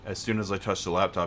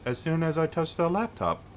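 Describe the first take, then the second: First: The words are said casually, with normal reductions. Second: Every word is pronounced fully and crisply. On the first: "instead of like" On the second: "I make her pronounce everything like a bit more"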